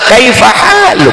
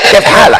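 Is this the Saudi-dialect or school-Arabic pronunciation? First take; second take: school; Saudi. First: It is said in formal school-taught Arabic. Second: It is said in Saudi colloquial Arabic. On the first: This is how it sounds in Islamic boarding schools. "kalau kita di pondok pesantren bunyinya sama" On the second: This is how people in Saudi Arabia say it. "Kalau di Saudi Arabia"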